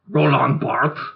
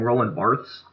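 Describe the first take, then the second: First: The name is said with a French pronunciation. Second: The name is said with an anglicized pronunciation. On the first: The speaker calls it right. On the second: The speaker calls it wrong. "I'm going to call him Roland Barthes. I know that it's not pronounced that"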